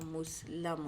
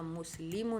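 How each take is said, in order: First: مسلم slowly as "mus-la-mun"; a in the middle of مسلم; مسلم sounded out with "la"; passive ending. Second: مسلم as "mus-li-mun"; مسلم sounded out with "lee"; active ending. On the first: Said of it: "یہاں مسلم آیا". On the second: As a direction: ee in the middle of مسلم. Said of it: "یہاں مسلم تھا". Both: Shown as a demonstration.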